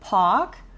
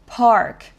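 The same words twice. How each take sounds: First: Australian accent, with no R and a long vowel. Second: American accent, with the R pronounced. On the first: "호주식으로는" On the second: "미국식으로 하면"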